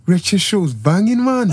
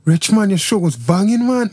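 First: Loosely attempted Birmingham accent. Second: Loosely attempted Manchester accent. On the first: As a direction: have a shaky go at Brummie. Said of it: "now do your Birmingham accent". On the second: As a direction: have a rough go at Mancunian. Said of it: "do your Manchester accent". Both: Shown as a demonstration.

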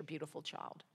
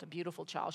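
First: Fading. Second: Said in the usual way. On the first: Real, not acted.

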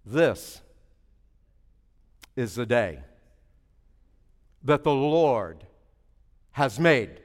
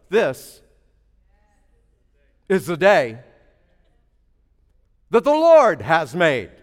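First: This is the day, each phrase set apart with long pauses; slow emphatic. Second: Louder, each phrase set apart, Lord drawn out; proclaimed emphatic. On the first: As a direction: drop the voice and space out this, is the day, that the Lord, has made. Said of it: "whatever you emphasize". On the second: Preacher proclaiming to the congregation, measured and strong. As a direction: proclaim This, is the day, that the Lord has made with weight. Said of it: "tell you a secret". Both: Shown as a demonstration.

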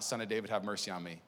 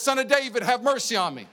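First: Soft, low, humble cry for mercy; a hushed beggar's plea; quiet plea. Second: High, loud cry for mercy; loud plea. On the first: Blind beggar crying out. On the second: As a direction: call out to the healer, pleading. Church crying out to healer. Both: Retold or imitated.

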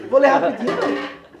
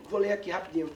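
First: Loud, playful correction with a laugh; louder, amused at own wording; joking self-correction. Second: Low, hurried, offhand; quick casual reading announcement. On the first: Teacher correcting himself before reading, loud and joking. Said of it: "Vou ler rápido, vou ler na velocidade". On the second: Teacher announcing he will read the story, quick and offhand. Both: Real, not acted.

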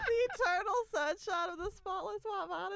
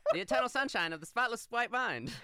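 First: Higher, louder incredulous laughing echo; laughing repeat. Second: Higher, louder newsreel announcer; 1940s announcer voice. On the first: Retold or imitated. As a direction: repeat it through laughter in disbelief. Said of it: "Is that what you just said?". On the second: Pretend. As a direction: announce it like an old radio bulletin. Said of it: "nineteen forties announcer voice".

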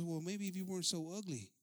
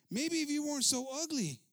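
First: Said in the usual way. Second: High, loud retold comeback; loud retort. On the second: Preacher repeating the man's comeback to the attendant, loud retort. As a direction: throw the insult back, louder and higher.

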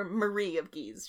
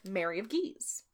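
First: "Marie" said the French way, stress on the second syllable; French pronunciation. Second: Said in the usual way. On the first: Shown as a demonstration. Host gives the French queen's name, French pronunciation. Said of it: "she's French". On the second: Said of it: "Or Marie of Guise".

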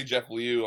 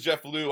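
First: Liu said in two syllables, lee-oo. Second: Liu said as one syllable, loo. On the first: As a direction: Jeff Liu, with Liu split into lee and oo. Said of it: "I always say Jeff Liu". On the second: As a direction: Jeff Liu, rhyming Liu with too. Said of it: "Max says Jeff Liu". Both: Shown as a demonstration.

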